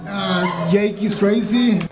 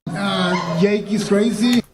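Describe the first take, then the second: No difference in how they are said.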